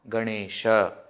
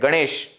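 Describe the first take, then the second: First: The final vowel is fully pronounced. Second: The final vowel is dropped. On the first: This is the proper Sanskrit form. The speaker calls it right. "we should say Rama, Ganesha" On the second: This is the colloquial Hindi form. The speaker calls it wrong. "they don't pronounce the last akara completely"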